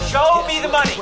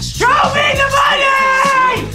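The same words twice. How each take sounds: First: It is said at normal, modest volume. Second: It is yelled loudly with high energy.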